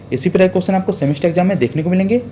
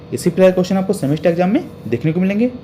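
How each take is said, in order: The two takes are said the same way.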